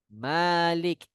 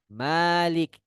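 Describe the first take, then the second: Both takes have the same delivery.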